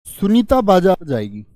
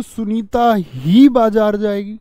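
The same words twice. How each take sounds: First: Said in the usual way. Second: ही drawn out and punched, louder and slow; stress on ही. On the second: Shown as a demonstration. Teacher showing emphasis on ही to students. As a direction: lean hard on ही, slowly. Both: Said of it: "लेकिन मैं जोर दे के बोलूं".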